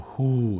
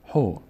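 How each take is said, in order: First: The vowel is drawn out long. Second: The vowel is kept short. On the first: The speaker calls it wrong. "نشه هو" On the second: The speaker calls it right. "نه"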